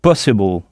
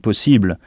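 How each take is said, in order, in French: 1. L'accent tombe fort sur la première syllabe. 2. L'accent tombe sur la deuxième syllabe. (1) "C'est comme si on frappait fort sur cette syllabe" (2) "on n'insiste pas sur le « i » comme en français. En français, on dit « possible »"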